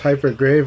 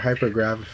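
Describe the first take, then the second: First: The last vowel sounds as in 'grave'. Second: The last vowel sounds as in 'gravity'.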